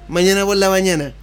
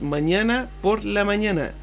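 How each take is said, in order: First: The words are run together into one. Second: The words are said separately and clearly.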